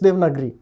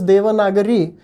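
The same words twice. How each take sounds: First: The short vowels after v and g are dropped. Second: The short vowels after v and g are pronounced. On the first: "if you say it in Hindi, it's Devanagari" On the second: "In Sanskrit, it is Devanagari"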